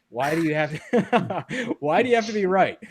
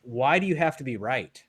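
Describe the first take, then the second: First: Higher and louder, laughing through the question; giggling mock protest; laughing exasperation. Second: Said in the usual way. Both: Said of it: "And then eventually I'm like".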